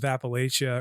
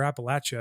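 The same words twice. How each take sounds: First: "Appalachia" said app-uh-LAY-sha; long-A pronunciation. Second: "Appalachia" said app-uh-LATCH-a; "Appalachia" with a short A and a ch; short-A pronunciation. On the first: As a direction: say "Appalachia" with LAY as the third syllable. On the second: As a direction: say "Appalachia" with LATCH as the third syllable. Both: Shown as a demonstration. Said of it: "I guess it's called".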